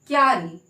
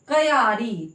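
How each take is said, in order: First: The k blends straight into the y sound. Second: The k is said as a separate full syllable. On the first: The speaker calls it right. "हम बोलते क्यारी" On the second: The speaker calls it wrong. "हम ऐसे नहीं बोलते कयारी"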